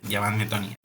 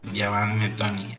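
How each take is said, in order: First: It is said at normal speed. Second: It is said more slowly.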